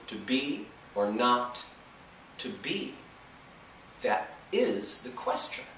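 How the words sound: It follows a strict alternating da-DUM beat.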